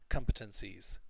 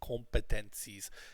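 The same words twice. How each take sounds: First: The stress is on the first syllable. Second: The first syllable is not stressed. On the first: The speaker calls it right. "the stress is on come" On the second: The speaker calls it wrong. "we don't say com"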